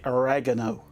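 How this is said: It is said with an American pronunciation.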